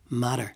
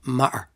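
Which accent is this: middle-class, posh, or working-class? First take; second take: middle-class; working-class. First: The t sound is a quick tap. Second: The t is replaced by a glottal stop. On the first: "a middle class one might tap the two T's" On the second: "working class Dublin accent would replace the T with a glottal"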